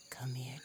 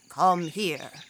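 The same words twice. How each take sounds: First: The tone is warm and seductive. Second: The tone is firm and commanding. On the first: A lover is inviting intimacy. "A woman may say to her lover" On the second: A superior is giving an order. "a boss may say"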